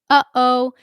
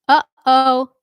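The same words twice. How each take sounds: No difference in how they are said.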